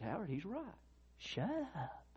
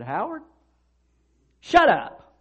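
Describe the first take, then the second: First: Soft, high, gentle correction; a still small voice, not a shout; quiet inner voice. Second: Loud, high barked order; stern shout. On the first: God speaks quietly to Howard. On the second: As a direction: cut him off sharply. Professor rebukes talkative student. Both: Retold or imitated.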